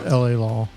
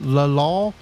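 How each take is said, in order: First: LA is said as two letters. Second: LA is said as a single word. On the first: "it's L A Law" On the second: "I say it that way because of an episode of The Golden Girls where Rose pronounced it La Law"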